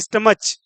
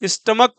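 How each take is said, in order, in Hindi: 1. शब्द का अंत 'च' की ध्वनि से होता है। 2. शब्द का अंत 'क' की ध्वनि से होता है। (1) "ना कि स्टमच" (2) "स्टमक पढ़ते हैं"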